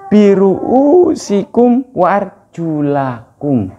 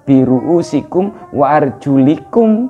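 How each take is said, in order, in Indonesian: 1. Vokal setelah L adalah a. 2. Vokal setelah L adalah i. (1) "Tapi yang benar" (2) "bukan arjulakum tapi arjulikum"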